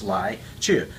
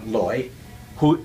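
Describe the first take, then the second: First: It is said with a Mandarin reading. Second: It is said with a Cantonese reading.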